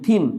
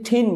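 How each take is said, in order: First: It begins with a soft th sound. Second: It begins with a puffed t sound. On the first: The speaker calls it right. "টি এর সাথে H মিলিত হয়ে এটার উচ্চারণ হয়েছে থ" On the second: The speaker calls it wrong. "এটাকে যদি ঠিন বলেন তাহলে হবে না"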